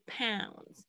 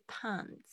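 First: "pounds" softly, with the full ow glide; correct pronunciation. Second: "pounds" softly, with a short open ah instead of ow; mispronounced pounds. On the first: Teacher shows students the right sound, correct pronunciation. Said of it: "是pounds". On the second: Teacher shows what not to say, mispronounced pounds. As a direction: flatten the ow in "pounds" to a plain ah. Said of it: "不是pounds". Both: Shown as a demonstration.

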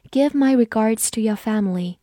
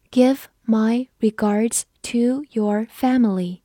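First: Said in the usual way. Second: Slow, separated words; slow read-through. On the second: Shown as a demonstration. Teacher models a greeting sentence, slow read-through. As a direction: read it one word at a time for learners. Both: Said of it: "我们慢读一遍".

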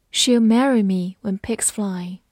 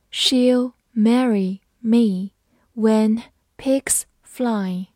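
First: Said in the usual way. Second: Word by word, with clear gaps; slow reading. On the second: Shown as a demonstration. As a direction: read each word out slowly for learners. (慢慢逐词朗读) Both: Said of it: "好，我们慢慢来读".

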